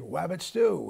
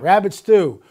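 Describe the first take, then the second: First: It is said in an Elmer Fudd voice. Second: It is said in his normal voice.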